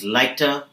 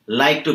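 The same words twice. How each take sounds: First: "liked to" fused as "liketa", weak final vowel; reduced form. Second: "like to" as two complete words; full form. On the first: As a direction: shrink "liked to" into one word, "liketa". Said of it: "like to becomes". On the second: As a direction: say "like to" unreduced, with a full "to". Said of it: "becomes liked to". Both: Shown as a demonstration.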